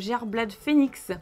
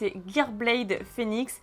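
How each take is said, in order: First: The name is read with French pronunciation. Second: The name is read with English pronunciation. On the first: The speaker calls it wrong. "c'est pas ça" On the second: The speaker calls it right. "Je pense que ça se prononce en anglais"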